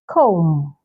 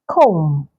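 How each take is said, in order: The two takes are said the same way.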